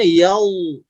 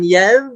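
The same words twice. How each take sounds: First: "Yau" thickened with the tongue root raised; thick, raised back. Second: "ya" with a thin, fronted a; thin wrong reading. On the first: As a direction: say "Yau" with a dark, backed vowel. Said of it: "naik pangkal suaranya". ("Yau" dibaca tebal, pangkal suara naik) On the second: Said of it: "Bukan ya". ("ya" dibaca tipis tanpa pangkal lidah naik) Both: Shown as a demonstration.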